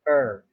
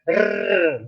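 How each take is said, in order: First: The R is soft and not rolled. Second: The R is exaggerated with a rolled tongue. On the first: "make it softer until we reach the R" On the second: "a little bit exaggerated so that the tongue will be twirled"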